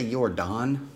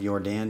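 First: "Don" with an open ah vowel, your Don; accented Dan. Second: "Dan" with a flat a as in cat, your Dan; standard Dan. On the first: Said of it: "In his accent, does he say". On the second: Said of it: "instead of". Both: Shown as a demonstration.

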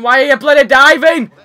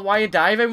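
First: Much louder and higher, yelling the question; angry shout. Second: Said in the usual way. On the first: Real, not acted. Gamer yells at his tennis character, furious shout. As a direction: blow up at the screen.

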